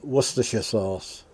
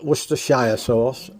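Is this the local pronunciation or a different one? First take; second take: local; different. First: It is said with the local pronunciation. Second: It is said with a non-local pronunciation. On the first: The speaker calls it right. "That's how we pronounce it" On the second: The speaker calls it wrong. "not Worcestershire sauce"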